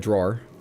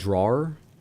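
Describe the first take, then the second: First: The word is said in a relaxed, reduced way. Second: The word is said with fuller, more careful sounds. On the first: "I say it that way" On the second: "pronounce it sort of more carefully"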